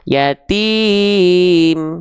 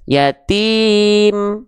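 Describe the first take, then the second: First: The vowel is held for four counts. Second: The vowel is held for two counts.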